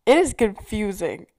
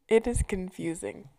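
First: It is confusing with a loud punch on "is"; emphatic. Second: Said in the usual way. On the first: Shown as a demonstration. Defending her wrong-way driving, emphatic "is". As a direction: hammer "is" in "It is confusing", louder.

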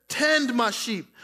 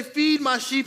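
First: Slow, with "Tend" weighted and drawn out; stress on tend. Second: Said in the usual way. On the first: Shown as a demonstration. Pastor explaining the Greek word, stress on "Tend". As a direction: lean on "Tend" to show its meaning. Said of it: "He says". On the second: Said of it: "He doesn't just say".

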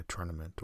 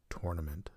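First: Tournament starting like turn; TUR-nament. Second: Tournament starting like tore; TOR-nament. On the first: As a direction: say tournament with an er vowel. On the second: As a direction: say tournament with an or vowel. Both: Shown as a demonstration. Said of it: "depending on how you want to say it".

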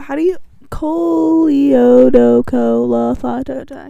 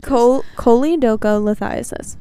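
First: Choleodocolithiasis stumbled out slowly, syllables garbled; mispronounced. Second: Choledocholithiasis said clearly, every syllable, kole-doh-koh-lih-THY-uh-sis; correct pronunciation. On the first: Real, not acted. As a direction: sound out choleodocolithiasis haltingly, wrong vowels. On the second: Shown as a demonstration. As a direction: carefully correct choledocholithiasis, a bit slow.

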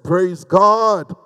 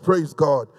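First: Drawn-out rallying "Praise God"; insistent congregational call. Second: Said in the usual way. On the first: Real, not acted. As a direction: call it out for a response. Repeats call to get response.

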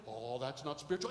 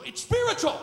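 First: Dismissive thought. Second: High, loud preacher's cry; emphatic rebuttal. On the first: Retold or imitated. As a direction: wave it off under your breath. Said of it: "you think". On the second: Real, not acted. Preacher refuting a dismissed thought, emphatic shout. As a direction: burst out in fierce insistence.

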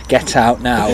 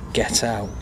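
First: Firm order at normal volume; mock-stern shop worker's command; firm dismissal. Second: Deadpan, hushed brush-off; quiet dismissal. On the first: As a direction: insist that they leave, no arguing. The dismissal repeated more firmly. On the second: Acted. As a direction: send them off under your breath. Fed-up shop staff dismissing customer.

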